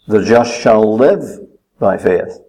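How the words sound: The word live is stressed.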